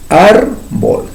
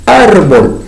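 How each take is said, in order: First: Said in the usual way. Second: Árbol split into two syllables, ár-bol, first one louder; syllabified demo. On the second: Shown as a demonstration. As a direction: tap out Árbol in two beats. (Árbol separado en dos sílabas) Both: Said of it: "dos sílabas".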